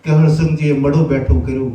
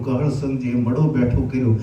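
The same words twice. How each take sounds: First: Loud proclamation of the miracle; proclaimed aloud. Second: Said in the usual way. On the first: Shown as a demonstration. Preacher proclaiming to the crowd, loud and ringing. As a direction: ring out કહળ સંઘજીએ loudly like news spreading.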